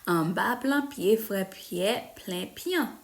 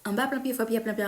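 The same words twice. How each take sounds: First: It is said slowly. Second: It is said fast.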